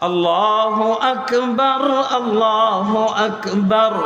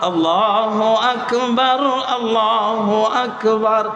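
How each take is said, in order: Both takes have the same delivery.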